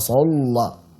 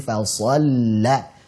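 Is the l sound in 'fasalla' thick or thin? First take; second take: thick; thin. First: The l sound is said thick and heavy. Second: The l sound is said thin and light. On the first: The speaker calls it wrong. "Jangan fasalla" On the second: The speaker calls it right.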